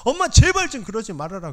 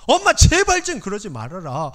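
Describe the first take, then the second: First: Desperate plea again. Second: Desperate plea. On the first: Pleading repeated. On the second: Pleading with mother. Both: Retold or imitated.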